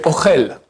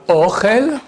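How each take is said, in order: First: "Ochel" with short O and stressed chel; stress on last syllable. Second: "Ochel" with a long, stressed O; stress on first syllable. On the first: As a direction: land on the end of "Ochel". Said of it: "Uniquement l'accent où tu mets". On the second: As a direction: lean on the O of "Ochel". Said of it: "j'ai mis une fois l'accent au début". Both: Shown as a demonstration.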